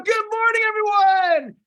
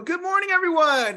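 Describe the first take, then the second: First: It is said with full energy and enthusiasm. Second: It is said with moderate, low energy.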